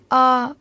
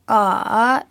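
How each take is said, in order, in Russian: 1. Слог произносится первым, ровным тоном. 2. Слог произносится третьим, понижающе-повышающим тоном. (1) "спокойно первым тоном" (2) "третьим"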